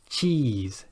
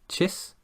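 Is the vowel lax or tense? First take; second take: tense; lax. First: The vowel is long with tense, spread lips. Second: The vowel is short with relaxed lips. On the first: The speaker calls it right. "tense those muscles" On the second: The speaker calls it wrong. "If you're pronouncing it like chis, then you won't feel those muscles"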